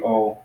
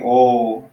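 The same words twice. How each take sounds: First: The vowel is said short. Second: The vowel is held long. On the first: "the short one be it just be O" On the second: "the omega will be a longer version. You would actually hold it longer"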